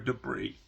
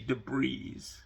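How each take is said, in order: First: The final S sound is silent. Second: The final S sound is pronounced. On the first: The speaker calls it right. "the S is silent" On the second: The speaker calls it wrong. "Mikey used to say debris"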